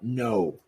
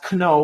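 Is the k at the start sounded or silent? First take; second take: silent; sounded. First: The k at the start is silent. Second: The k at the start is pronounced. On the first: The speaker calls it right. "we say it as uh, no" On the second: The speaker calls it wrong. "we don't say it as kno"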